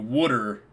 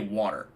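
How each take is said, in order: First: The word is said with an exaggerated regional 'wooder'. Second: The word is said in a plain, standard way. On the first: This is a joke, not how they really talk. "they do wooder in here to act like they say like that" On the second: This is how they really talk. "they always say water the normal way"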